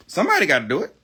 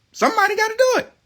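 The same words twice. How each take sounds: First: Said in the usual way. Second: Mock squeaky repeat. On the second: Ranting vlogger mocks his own line in a squeaky voice. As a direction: jump way up high and fast for the repeat.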